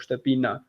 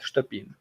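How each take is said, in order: First: A final vowel is sounded after the n. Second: The word ends on the n, no final vowel. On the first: The speaker calls it wrong. "If I pronounce it like that, it's because I want to let you know there is an E there" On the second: The speaker calls it right. "But it's Shtepin, like that"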